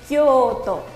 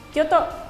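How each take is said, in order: First: The first o sound is long. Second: The first o sound is short.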